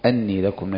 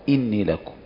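First: The first word begins with an 'a' vowel. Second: The first word begins with an 'i' vowel. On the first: He was sent with the message that he is a warner. "وعلى الفتح" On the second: He said to them directly: I am a warner. "كسر الهمزة"

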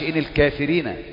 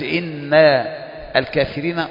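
First: The nasal n sound is hidden and barely heard. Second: The nasal n sound is held clearly. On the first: The speaker calls it wrong. "ما ينفعش" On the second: The speaker calls it right. "واضحة"

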